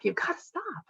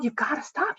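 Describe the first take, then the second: First: Much higher, hushed strained whisper; telling her husband to stop, dropping to a strained high whisper. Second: Higher, sharp snapping yell; yelling at her husband over the clattering spoons, sharp and higher; retold yell. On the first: Retold or imitated. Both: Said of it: "And I just yelled".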